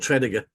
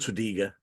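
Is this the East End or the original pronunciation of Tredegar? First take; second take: East End; original. First: It uses the local East End pronunciation. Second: It uses the original pronunciation of the name. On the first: This is how local people say the name. "In the East End, they're called Tredegar" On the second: This is how the name was first said. "They're not called Tredegar"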